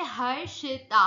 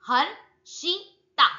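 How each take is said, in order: First: Said in the usual way. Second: Harshita broken into three slow, separate syllables; syllable breaks. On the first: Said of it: "जहां जहां break down कर रहे हो". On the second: Shown as a demonstration. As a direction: split Harshita as हर, शि, ता with pauses. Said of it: "जहां जहां break down कर रहे हो उसको बोलने में".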